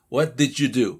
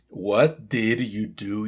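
First: 'Did you' merges into a 'j' sound. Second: Each word is said separately and clearly. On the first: The speaker calls it right. "especialmente los americanos van a decir" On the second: The speaker calls it wrong. "Si lo decimos palabra por palabra"

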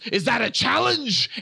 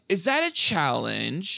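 First: It is said angrily and forcefully. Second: It is said weakly, without force.

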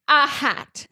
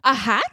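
First: It is said flatly, without expression. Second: It is said with lively, questioning expression. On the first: The speaker calls it right. "said Harry flatly" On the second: The speaker calls it wrong.

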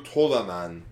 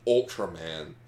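First: It is said with a Japanese accent. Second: It is said with an English accent.

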